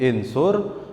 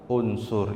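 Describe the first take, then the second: First: The word begins with an i vowel. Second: The word begins with a u vowel. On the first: The speaker calls it wrong. "gak mungkin insur" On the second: The speaker calls it right. "bacanya kita unsur"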